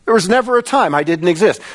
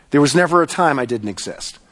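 First: Lifted preaching voice, quicker pace; insistent declaration. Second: Said in the usual way. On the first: Acted. Preacher speaks as God to Moses, insistent declaration. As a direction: drive the declaration home, pitched up. Repeats God's declaration with more force.

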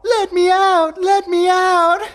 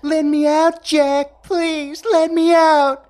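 First: High shrill mock pleading, slow; imitating a trapped girl's loud pleas. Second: High falsetto imitating a pleading girl; mocking. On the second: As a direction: mimic her begging in a high squeal. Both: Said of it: "Jack imitated her voice".

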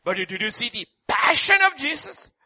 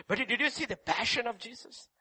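First: Said in the usual way. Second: Softer repeat. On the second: Acted. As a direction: drop to a hushed echo of the question. Preacher repeats question, second softly.

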